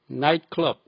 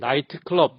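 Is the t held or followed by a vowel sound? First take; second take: held; vowel. First: The t is held with no vowel after. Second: The t is followed by an extra vowel. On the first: The speaker calls it right. "트 소리만 빼면 됩니다" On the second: The speaker calls it wrong. "변두리 발음 트 소리를 꼭꼭 달고 다닙니다"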